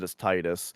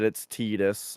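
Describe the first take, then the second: First: "Titus" with a long i, like tie; first syllable of "Titus" rhymes with tie; TY-dus pronunciation. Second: "Tidus" with an ee, like tea; first syllable of "Tidus" rhymes with tea; TEE-dus pronunciation. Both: Shown as a demonstration. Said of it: "I've heard people argue that".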